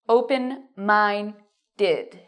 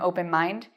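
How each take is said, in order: First: The word ends with an extra -ed syllable. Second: The word ends without an -ed syllable. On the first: The speaker calls it right. "you need open mind did. Did" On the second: The speaker calls it wrong. "Many students say, I have or I am open mind"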